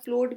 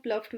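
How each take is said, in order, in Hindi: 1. स्वर 'cow' में 'ow' जैसा लगता है। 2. स्वर 'cuff' में 'uff' जैसा लगता है। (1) "प्लोड भी प्रोनाउंस कर सकते हैं" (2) "प्लफ्ड भी प्रोनाउंस कर सकते हैं"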